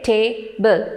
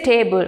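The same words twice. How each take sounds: First: "table" slowly split into two separate syllables. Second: Said in the usual way. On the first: Shown as a demonstration. Teacher showing learners two syllables, "table" split slowly. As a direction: say "table" slowly as ta, ble, with a gap. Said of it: "two syllables". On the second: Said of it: "When you say table, we say".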